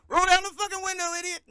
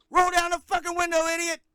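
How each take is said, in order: First: High, very fast shouted punchline; mock yelling. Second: High, fast, furious yell; yelling cop. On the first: Friend yelling the cop's line back as the punchline, high and fast. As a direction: scream it back in the cop's face. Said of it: "I was like". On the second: Retold or imitated. Friend mimicking the cop yelling at him during a stop, high fast yell. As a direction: bark it like a cop losing his temper. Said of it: "He said".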